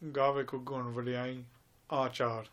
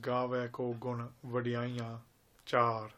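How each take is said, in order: First: The last word is heard as achar. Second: The last word is heard as char. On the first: The meaning of the line changes. The speaker calls it wrong. "Many people say ... It's not achar" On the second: The praises are beautiful. The speaker calls it right. "the Pankti of Gurbani is"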